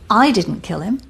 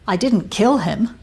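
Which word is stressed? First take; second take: I; kill. First: The stress is on "I". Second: The stress is on "kill".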